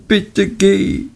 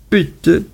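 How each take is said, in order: First: Hohes, betontes bitte; dringender flehend. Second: Hohes, fallendes Bitte; flehend. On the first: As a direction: das bitte noch dringender betonen, hoch gehalten. (hohes, nachdrückliches „bitte geh“) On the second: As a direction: das Bitte verzweifelt flehen, hoch ansetzen und fallen lassen. (hohes flehendes „Bitte“) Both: A narrator's reading. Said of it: "Dora war außer sich".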